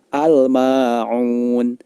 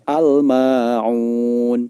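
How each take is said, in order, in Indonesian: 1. L dibunyikan dengan jelas sebelum M. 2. L dibunyikan dengan jelas sebelum M.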